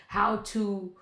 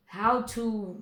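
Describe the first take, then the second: No difference in how they are said.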